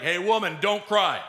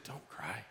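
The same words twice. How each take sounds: First: Brusque, scolding order; mock rebuke. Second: Very soft, low and kind; extreme gentleness. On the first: Preacher showing how Jesus didn't speak to the widow, mock rebuke. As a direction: toss it out as a tactless reprimand. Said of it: "I'm sure he wasn't rebuking this woman". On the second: Acted. Jesus comforting the grieving widow, gentle and kind. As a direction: hush it tenderly, almost under the breath. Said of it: "with extreme gentleness and incredible kindness".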